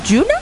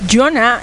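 First: The first vowel sounds like U. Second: The first vowel sounds like O. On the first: "debe sonar como U" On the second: "yo lo digo literal así"

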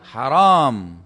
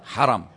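First: The second vowel is long. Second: The second vowel is short. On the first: It means forbidden. The speaker calls it wrong. "Jangan Anda bilang haram. Karena kalau ditambah alif" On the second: It means honored. The speaker calls it right. "Dibaca langsung ya. Bagaimana bacanya?"

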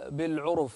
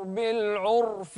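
First: The r is followed by a u vowel. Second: The r has no vowel after it. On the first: The speaker calls it wrong. "لا تضم الراء لا تقول بالعرف لا" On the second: The speaker calls it right. "أسكن الراء"

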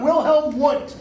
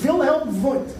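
First: The name is pronounced with English sounds. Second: The name is pronounced with German sounds. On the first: The speaker calls it wrong. "whose name is not Wilhelm Wundt" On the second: The speaker calls it right. "He's German. His name is Wilhelm Wundt"

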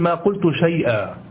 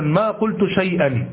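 First: The last word ends with a long a. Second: The last word ends with an n sound. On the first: The speaker calls it right. "الصواب أن تقول ما قلت شيئا" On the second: The speaker calls it wrong. "لا تقف مثلا على التنوين، تقول مثلا ما قلت شيئا، هذا خطأ"

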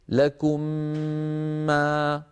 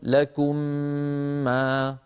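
First: The nasal m sound is held long. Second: The nasal m sound is short. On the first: The speaker calls it right. "نقول لكم ما، أعيد" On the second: The speaker calls it wrong. "فبدل أن نقول لكم ما"

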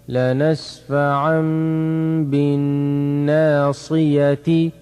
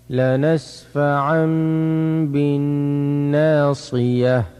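First: The final word ends with a vowel and n. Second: The final word ends on a bare consonant. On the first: "تا كسرتي" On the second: "وفي حال الوقف"

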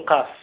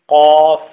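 First: The first consonant is light, not emphatic. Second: The first consonant is heavy and emphatic. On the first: The speaker calls it wrong. "لا تقول قاف" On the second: The speaker calls it right. "تقول قاف قا"

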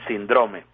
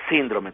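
First: The stress falls on a later syllable. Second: The stress falls on the first syllable. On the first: The speaker calls it wrong. "como no saben de eso dicen síndrome" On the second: The speaker calls it right. "pero es síndrome como está escrito acá"

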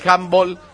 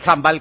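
First: The word is pronounced the English way. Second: The word is pronounced the Spanish way.

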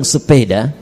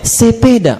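First: The word is said in a standard accent. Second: The word is said in a Medan accent. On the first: "Antum bilang sepeda" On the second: "teman dari Medan ... dia bilang apa?"

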